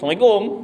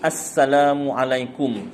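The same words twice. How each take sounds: First: The greeting is short with clipped sounds. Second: The greeting is drawn out with full sounds. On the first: It has no meaning and earns no reward. The speaker calls it wrong. "beri salam yang tak betul ... pendek je" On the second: It is a proper greeting with meaning. The speaker calls it right. "beri salam yang betul ... dia memang panjang sikit"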